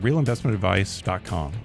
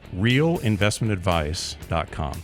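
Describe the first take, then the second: First: The phrase is said very quickly. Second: The phrase is said slowly and clearly. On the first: The speaker calls it wrong. "I said that really fast" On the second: The speaker calls it right. "Let me slow down"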